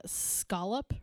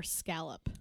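First: "scallop" with a broad AH, as SKAH-lup. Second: "scallop" with the A of "cat", as SKAL-up; scallop with short A. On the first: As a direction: say "scallop" to rhyme with "wallop". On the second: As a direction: say "scallop" to rhyme with "gallop". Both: Shown as a demonstration. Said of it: "speaking of, uh, scallop or scallop?".

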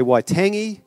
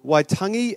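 First: Waitangi said "why-TANG-ee"; anglicised pronunciation. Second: Waitangi said "why-TUNG-ee"; Māori-style pronunciation. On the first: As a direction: say Waitangi with a short "a", rhyming with tangy. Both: Shown as a demonstration. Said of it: "don't be offended with my pronounce".

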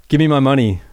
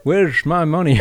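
First: Put-on old man voice demanding his money; a hint of a deranged old caller; grumpy old man. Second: Put-on deranged old man on the phone, louder; grumpy old man. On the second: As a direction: whine it like a cranky old caller. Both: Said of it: "put on this old man voice".

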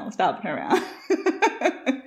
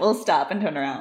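First: Slow it right down, laughing; slow drawn-out repeat. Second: Said in the usual way. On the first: Shown as a demonstration. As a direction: stretch each word out. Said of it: "repeated slower". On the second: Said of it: "repeated line".

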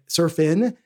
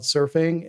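First: [name] ending in a plain N sound; dropped final G. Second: Said in the usual way. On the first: Shown as a demonstration. Host spelling out the song title, "[name]" ending on N. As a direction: say "[name]" with -in at the end, no G. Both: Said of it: "with a, you know, an N".

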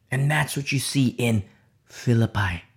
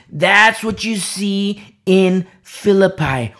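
First: Said in the usual way. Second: "That's what you see in Philippi" slow, higher and louder, word by word; emphatic repeat. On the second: Real, not acted. Preacher driving home "Philippi" to the congregation, slow emphatic stress.

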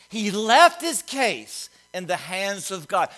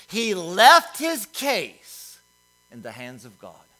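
First: He left his case said at moderate pace, LEFT stressed; slower repeat. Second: He left his case read slowly, LEFT stressed, falling to a hush; slow savoring read. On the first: Preacher repeating the verse to let it sink in, firm. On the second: Preacher savoring his favorite translation, slow and weighty. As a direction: linger on LEFT and let the line sink. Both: Shown as a demonstration. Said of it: "I love the way it says it".

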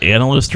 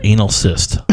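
First: Said in the usual way. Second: "anal cyst" with a long A opening; misheard pronunciation. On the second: Shown as a demonstration. Co-host puzzling over what was said, misheard pronunciation. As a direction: say "anal cyst" as two words, ending in SIST. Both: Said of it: "He either said analyst or anal cyst".

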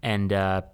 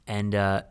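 No difference in how they are said.

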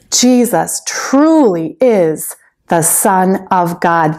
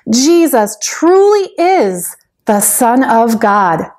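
First: Slow, weighty statement of faith; slow declaration. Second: Said in the usual way. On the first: Shown as a demonstration. Teacher models the line for children, slowly. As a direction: set it down slowly for them to repeat. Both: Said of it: "Can you say that with me".

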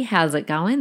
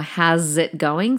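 First: Said in the usual way. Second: "How's it going?" run together as a slow, breathy "howzit"; slang howzit. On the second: Shown as a demonstration. Showing listeners the Aussie slang greeting, slow slurred howzit. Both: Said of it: "spelt H O W Z I T".

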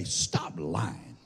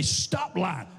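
First: Low, soft mumbled stop lying; muttered like nobody means it; half-hearted. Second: Mean it this time; firm. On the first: Pastor mocking the crowd's weak reply, mumbled. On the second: Pastor demanding it said like they mean it, firm. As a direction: stop lying said firmly, stop punched. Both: Shown as a demonstration. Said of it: "tell 'em like you mean it".

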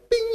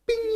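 First: Said in the usual way. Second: Bing squeaked way up high like a game beep; ping out "bing" in a tiny high electronic voice; arcade bing sound. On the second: Shown as a demonstration. Describing the arcade bear game, imitates the high beep. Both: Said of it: "it goes bing".

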